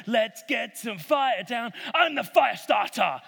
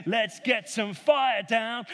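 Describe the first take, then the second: First: Chanted, slow, loud, shouted "Let's get some fire down"; mock chanting shout. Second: Slow, loud, chanted "let's get some fire down"; rally the crowd in a slow chant; mock chant. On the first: Prophets of Baal dancing for fire, slow loud chanted shout. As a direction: chant it louder, whipping them up. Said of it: "They're singing". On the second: Prophets of Baal calling on their god, slow loud chant. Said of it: "start dancing around and saying".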